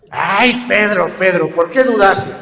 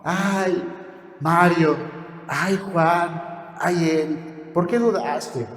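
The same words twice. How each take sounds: First: Louder, exasperated rebuke; hauling him up by the hair, scold him; mock-rough louder scolding. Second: Softer, tender and loving; a touch of doting tenderness; affectionate rebuke. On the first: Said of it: "lo pescó de las greñas". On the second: Retold or imitated. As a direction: hug them close and chide gently. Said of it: "Con amor, con mucho cariñito".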